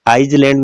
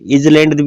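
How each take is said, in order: First: A clear s is sounded in the middle. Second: A z sound is heard in the middle. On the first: "आइसलैंड नहीं बोलते" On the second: "इजलैंड भी नहीं बोलते"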